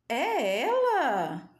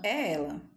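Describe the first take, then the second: First: It is said with amazed surprise. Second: It is said as a firm statement.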